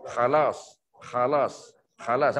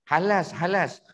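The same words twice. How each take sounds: First: "khalas" dengan kh garau dari tekak. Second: "halas" dengan h lembut biasa; salah sebut halas. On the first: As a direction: geser "khalas" dalam tekak, rendah. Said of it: "Nampak bunyi dia?". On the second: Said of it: "Dia bukan halas". (sebutan "halas" yang salah) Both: Shown as a demonstration.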